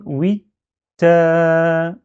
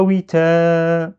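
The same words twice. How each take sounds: First: "oui" blocked on t, then "ta" held long; stop, then release a sustained "taaa"; "oui, ta" as "wit...taaa"; shadda plus long vowel. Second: "oui, ta" run together as "witaaa", long a; undoubled t in "oui, ta", vowel stretched; wrong, without shadda. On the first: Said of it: "Je dois bien bloquer". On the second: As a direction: skip the block on t and glide into a held "ta". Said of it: "c'est pas". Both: Shown as a demonstration.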